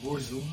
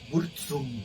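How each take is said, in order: First: The middle consonant is a plain z sound. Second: The middle consonant is a ts sound. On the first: This is how most people say it. "todo el mundo le dice Burzum" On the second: This is how some people, reportedly the creator too, say it. "como pizza, que es doble Z y es pizza"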